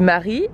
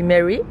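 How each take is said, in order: First: The name is said with a French accent. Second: The name is said with an American accent. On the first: "je vais le prononcer à la française" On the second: "le prononcer en mode euh, bah, l'américaine"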